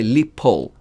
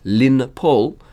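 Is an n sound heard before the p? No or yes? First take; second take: no; yes. First: No n sound comes before the p. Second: An n sound comes before the p. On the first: "we drop the nun" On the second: "including the nun"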